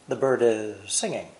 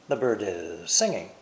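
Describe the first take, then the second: No difference in how they are said.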